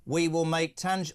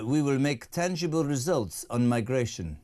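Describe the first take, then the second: First: Lightly voiced Starmer impression; an attempted Macron quote slipping into a hint of Starmer. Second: Lightly imitated French president; Macron voice. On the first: Host misfiring while quoting the French president, lightly done Starmer voice. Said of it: "oh, that's Starmer". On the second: Host quoting the French president on migration, lightly voiced impression. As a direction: give a hint of a statesman's announcement. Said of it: "Emmanuel Macron has just said".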